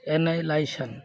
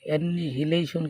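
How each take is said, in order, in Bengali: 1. মাঝখানে কোনো 'h' উচ্চারিত হয় না। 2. মাঝের 'h' উচ্চারিত হয়। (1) "উচ্চারণ হলো অ্যানাইলাইশন" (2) "অ্যানিহিলেশন কিন্তু না"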